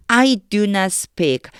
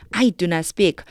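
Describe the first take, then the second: First: Each word read very slowly; slow careful reading. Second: Said in the usual way. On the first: Shown as a demonstration. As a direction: spell it out slowly for students. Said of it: "그럼 다시 해볼게요". (한 단어씩 아주 천천히 읽기) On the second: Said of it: "다시 해볼게요".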